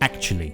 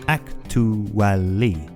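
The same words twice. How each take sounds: First: The word is said with three syllables. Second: The word is said with four full syllables. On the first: The speaker calls it right. "we pronounce it with three syllables" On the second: The speaker calls it wrong. "Many people think it's pronounced with four syllables"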